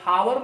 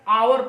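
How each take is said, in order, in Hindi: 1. यह शब्द 'h' ध्वनि से शुरू होता है। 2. यह शब्द स्वर ध्वनि से शुरू होता है। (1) "इसको हावर नहीं पढ़ते हैं" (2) "आवर पढ़ते हैं"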